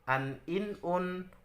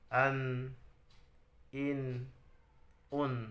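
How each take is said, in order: First: The syllables are read quickly and short. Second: The syllables are read slowly and drawn out. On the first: The reader is fluent. The speaker calls it right. "Harus cepat" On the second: The reader is not yet fluent. The speaker calls it wrong. "itu berarti belum lancar, belum cepat dan pendek"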